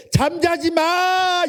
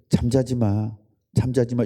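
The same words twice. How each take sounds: First: Drawn-out high shout; a long, stretched scolding cry; exasperated yell. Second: Said in the usual way. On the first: Retold or imitated. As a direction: yell it out, slow and high, fed up. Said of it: "이렇게 되는 거야, 열 배로". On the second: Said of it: "이렇게 말할 걸".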